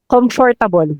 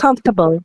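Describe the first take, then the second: First: Every syllable of the word is pronounced fully. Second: One syllable of the word is dropped. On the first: The speaker calls it wrong. "ano yung pronunciation error that always annoys you? Ah, comfortable" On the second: The speaker calls it right. "Dapat daw comfortable. ... Silent"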